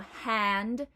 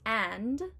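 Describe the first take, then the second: First: The word starts with an H sound. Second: The word starts straight on the vowel.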